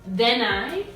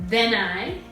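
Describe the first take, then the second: No difference in how they are said.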